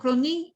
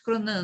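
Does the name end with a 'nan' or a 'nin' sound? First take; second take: nin; nan. First: The last syllable sounds like 'nin'. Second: The last syllable sounds like 'nan'. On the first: It is the more widely known form. "uns falam Cronin ... mas é conhecido mais como Cronin" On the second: It follows the English pronunciation. "outros Cronan ... pela pronúncia inglesa é Cronan"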